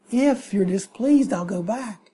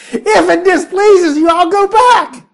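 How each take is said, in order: First: Meek offer. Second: High, loud, melodramatic plea; dramatic whine. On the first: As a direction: mumble it meekly and trail off. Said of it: "you say". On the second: Balaam pleading to the angel, a high hammed-up whine. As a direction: wail it like a wounded martyr. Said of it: "how could you say it any more dramatically". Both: Retold or imitated.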